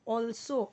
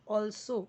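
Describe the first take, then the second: Both takes have the same delivery.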